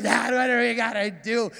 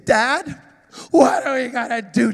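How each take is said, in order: First: Sarcastic. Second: Put-on worried child. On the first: Retold or imitated. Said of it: "And so sarcastic". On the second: Scared son asking dad.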